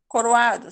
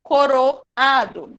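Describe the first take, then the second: First: "coroado" with O and A squeezed into one syllable; quick, run together. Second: "Coroado" broken slowly as co-ro, then a-do; separated, slow. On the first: Teacher shows the unnatural form, "coroado" with vowels merged. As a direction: rush "coroado" as co-rwa-do. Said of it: "Bem, bem rápido mesmo". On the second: Teacher shows the hiatus, "Coroado" slowly split before the A. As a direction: give the A in "Coroado" its own syllable. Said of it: "eles se separam". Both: Shown as a demonstration.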